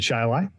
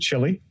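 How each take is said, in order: First: The name is said the way locals say it. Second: The name is said the way outsiders say it. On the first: This is how the town's own residents say its name. "We pronounce it Chili" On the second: This is how people elsewhere say the town's name. "Rest of the world pronounces it Chili"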